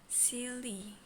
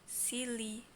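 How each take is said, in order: No difference in how they are said.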